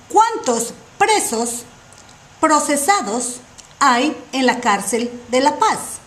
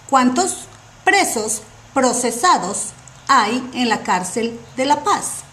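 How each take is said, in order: No difference in how they are said.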